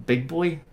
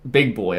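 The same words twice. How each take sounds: First: Put-on higher, questioning repeat of BIG BOY; puzzled echo question. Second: Said in the usual way. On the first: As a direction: echo it back as a baffled question. Puzzled echo of her answer. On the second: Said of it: "And she goes".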